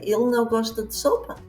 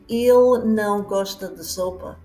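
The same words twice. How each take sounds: First: It is said with a questioning tune. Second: It is said as a plain statement. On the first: Doesn't he like the soup? "and you're asking, doesn't he like the soup?" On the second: He doesn't like the soup. "instead of saying"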